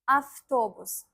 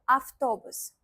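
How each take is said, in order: No difference in how they are said.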